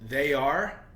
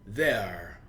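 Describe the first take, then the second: First: Both words are said in full. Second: The words are joined into one syllable.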